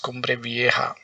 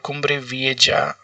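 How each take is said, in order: First: The j in Vieja sounds like an h. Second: The j in Vieja sounds like English j. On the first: This is the Spanish way of saying it. "in Spanish they pronounce J as here" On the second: This is the usual English way of saying it. "Normally in English we would call it"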